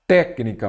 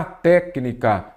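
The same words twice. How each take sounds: First: Said in the usual way. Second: "Técnica" slowly, stressed on TÉC; drawn-out syllables. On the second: Shown as a demonstration. Teacher checking for a proparoxítona, técnica slowly sounded out. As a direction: stretch "Técnica" so each syllable is heard. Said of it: "vamos separar a palavra em sílaba".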